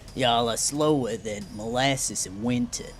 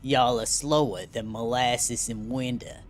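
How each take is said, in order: First: It is said in a Southern American accent. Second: It is said in a mafia-style New York accent. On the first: "What's a Southern accent sound like?" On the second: "Maybe I'll try giving him another mafia voice"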